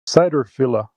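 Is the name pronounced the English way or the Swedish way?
English. The name is pronounced with English vowel sounds. "Have to pronounce it the English way"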